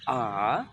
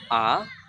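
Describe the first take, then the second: First: The pitch dips low, then rises. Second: The pitch rises from mid to high. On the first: "kayak V turun baru naik" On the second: "ada naik garis"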